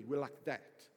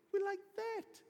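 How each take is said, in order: First: Low, matter-of-fact assurance; confident pledge. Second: Much higher, acted protest; incredulous insistence. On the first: Retold or imitated. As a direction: play a sure-of-himself best mate. Peter confidently pledges closeness to Jesus. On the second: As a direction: insist in high-pitched disbelief. Peter protests Jesus's prediction.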